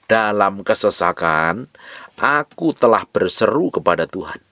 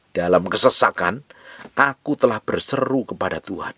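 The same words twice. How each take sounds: First: Reads the verse slowly, savouring each word; slow scripture reading. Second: Said in the usual way. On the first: Shown as a demonstration. Preacher reads the fifth verse aloud to the congregation, slow and deliberate. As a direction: draw out Dalam kesesakan, then lift aku. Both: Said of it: "Perhatikan ayat yang kelima".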